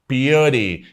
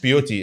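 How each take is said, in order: First: The middle consonant is a light d-like flap. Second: The middle consonant is a hard t. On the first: The speaker calls it right. "التي حولناها لدي خفيفه" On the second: The speaker calls it wrong. "ما اسمهاش بيوتي"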